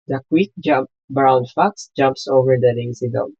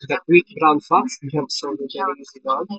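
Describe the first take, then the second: First: There is only light background noise. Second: There is heavy background noise. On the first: "Not so noisy background" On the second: "Noisy background"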